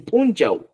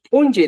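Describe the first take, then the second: First: "punchau" ending in an AU glide; variant pronunciation. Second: "Punche" ending in an EY glide, high, loud; Cusco pronunciation. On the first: Teacher showing what some say, "punchau" ending -au. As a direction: raise "punchau" and close it on -chau. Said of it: "Algunos dicen". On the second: Teacher showing the Cusco form, "Punche" ending -ey. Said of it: "decimos en Cusco". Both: Shown as a demonstration.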